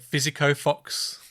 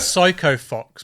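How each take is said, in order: First: The first word has three syllables, 'fi-zi-ko'. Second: The first word has two syllables, 'sy-ko'. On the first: The speaker calls it wrong. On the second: The speaker calls it right.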